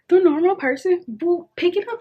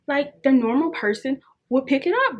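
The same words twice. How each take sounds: First: The normal person will pick it up, said higher and louder with a push on The; emphatic repeat. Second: Said in the usual way. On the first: Shown as a demonstration. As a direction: insist on it, higher and louder, leaning on The.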